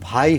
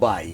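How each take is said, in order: First: The first consonant has a strong puff of breath. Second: The first consonant has no puff of breath. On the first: The speaker calls it right. "ভাই বলে" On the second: The speaker calls it wrong. "ভাই হয়ে যায় বাই"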